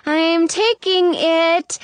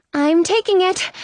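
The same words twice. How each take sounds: First: Drawn-out, hesitant "I'm taking it"; stalling slowly. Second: Said in the usual way. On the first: A narrator's reading. Snow nervously takes the cookie, stalling slowly. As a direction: stretch every word of "I'm taking it".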